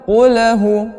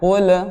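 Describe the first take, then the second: First: The l bounces into an added vowel sound. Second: The l is pressed and stops without a vowel. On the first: The speaker calls it wrong. "qulnya memantul" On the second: The speaker calls it right. "lam sukun itu agak ditekankan"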